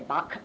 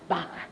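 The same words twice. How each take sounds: First: The name ends with a plain hard k sound. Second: The name ends with a guttural throat sound. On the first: The speaker calls it wrong. "Many people say Bach" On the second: The speaker calls it right. "No, it's Bach"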